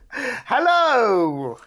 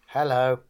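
First: It is said in a brighter, happier tone. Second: It is said in a flat, down tone.

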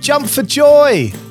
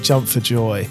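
First: It is said loudly and excitedly. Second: It is said quietly and flatly.

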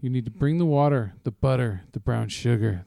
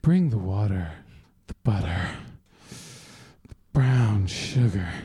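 First: It is read in a plain voice. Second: It is read in a sexy voice.

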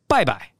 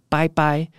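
First: It is said the mainland Chinese way. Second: It is said the Taiwanese way.

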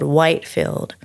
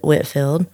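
First: The first vowel is long, as in white. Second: The first vowel is short, as in whit. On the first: "it's spelled Whitefield" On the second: "but we pronounce it Whitfield"

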